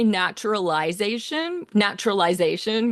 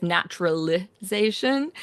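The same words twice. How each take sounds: First: "naturalization" with -lization rhyming "eyes-ation"; Australian long-I pronunciation. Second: "naturalization" with an unstressed lih-ZAY-shun ending; American short-I pronunciation. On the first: Composer showing how Australians say "naturalization", long I. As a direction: say "naturalization" with an eye sound before -zation. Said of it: "We say it with an I". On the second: Composer contrasting the other way of saying "naturalization", short I. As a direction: say "naturalization" with a short ih before -zation. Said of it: "with an I instead of".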